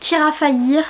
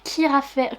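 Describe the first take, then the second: First: The second word ends like 'fa-yeer'. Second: The second word ends like 'fair'. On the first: The speaker calls it right. "ça se dit Kira Faillir" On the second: The speaker calls it wrong. "Moi je disais ça Kira Faire"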